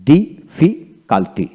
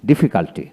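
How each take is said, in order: First: Very slow difficulty with gaps between syllables; broken into syllables. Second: Said in the usual way. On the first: Shown as a demonstration. Teacher breaking difficulty down for learners, slow syllable by syllable. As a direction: stretch difficulty out in separate beats. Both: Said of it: "এইভাবে ভেঙে ভেঙে".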